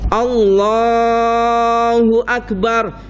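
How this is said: The word Allah is stretched out long. It leaves time to form the intention in the heart. The speaker calls it right. "kalimatnya dipanjangkan Allahnya"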